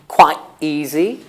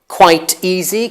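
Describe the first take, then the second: First: The t in quite is a glottal stop. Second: The t in quite is a clear t.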